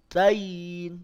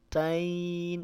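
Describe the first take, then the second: First: The final y sound is hard and tense. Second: The final y sound is soft and relaxed. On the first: The speaker calls it wrong. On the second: The speaker calls it right. "tapi tain, lunak saja"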